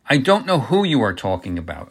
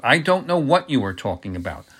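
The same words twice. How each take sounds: First: "who" lifted within a firm denial; stress on who. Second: "what" lifted within a firm denial; stress on what. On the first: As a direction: lean on the word "who". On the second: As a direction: lean on the word "what". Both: A narrator's reading. Denial repeated, who against what.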